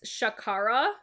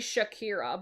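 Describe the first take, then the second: First: The middle vowel sounds like 'ah'. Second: The middle vowel sounds like 'ee'. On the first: The speaker calls it right. "but it's Shakara" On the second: The speaker calls it wrong. "I keep wanting to say Shakira"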